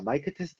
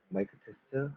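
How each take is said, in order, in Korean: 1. 목소리가 최대한 커요. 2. 목소리가 꽤 작고 부드러워요. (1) "최대한 크게 얘기를 하고자 합니다" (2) "제가 비교적 좀 작게 얘기한 편이긴 하지만은"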